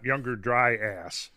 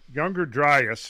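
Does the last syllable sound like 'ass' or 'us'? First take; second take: ass; us. First: The last syllable is a full 'ass' sound. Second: The last syllable is a weak 'us' sound. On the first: The speaker calls it wrong. "I hear people pronouncing it that way sometimes" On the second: The speaker calls it right. "it's Younger Dryas"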